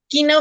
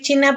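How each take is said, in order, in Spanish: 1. La palabra empieza con sonido 'k' fuerte. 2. La palabra empieza con sonido 'ch'. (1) "se pronuncia quina" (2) "No vayan a decir China"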